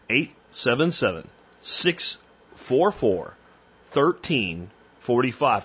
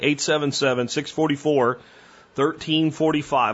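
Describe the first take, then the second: First: It is said more slowly. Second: It is said at a normal speed.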